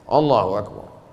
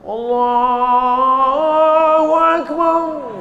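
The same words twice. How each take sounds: First: The phrase is said short and quick. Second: The phrase is said long and drawn out.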